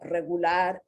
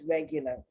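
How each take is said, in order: First: It is pronounced with Spanish sounds. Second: It is pronounced with English sounds. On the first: "in Spanish" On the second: "and in English"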